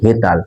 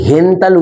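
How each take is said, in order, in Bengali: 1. ট-এর আগে কোনো ন-ধ্বনি আসে না। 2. ট-এর আগে একটি ন-ধ্বনি আসে। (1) "ওটা হচ্ছে হেতাল" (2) "কেউ কিন্তু হেনতাল উচ্চারণ করবে না"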